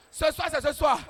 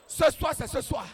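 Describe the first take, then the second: No difference in how they are said.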